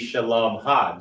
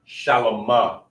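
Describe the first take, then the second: First: The ending ha is said as a separate part. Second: The ending is joined smoothly onto the word. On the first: It marks possession. "adding a ha at the end to say her piece" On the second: It is used as a servile form, not possessive. "you would just pronounce it all together"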